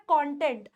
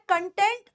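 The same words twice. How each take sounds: First: कंटेंट as "KON-tent"; second pronunciation. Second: कंटेंट as "kun-TENT"; weak "kun", then full "tent" in कंटेंट; first pronunciation. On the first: Teacher explains two meanings, कंटेंट said "KON-tent". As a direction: clear open "kon" starting कंटेंट. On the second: Teacher explains two meanings, कंटेंट said "kun-TENT". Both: Shown as a demonstration. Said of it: "दो प्रोनंसिएशंस हैं".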